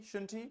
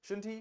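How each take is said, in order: The two takes are said the same way.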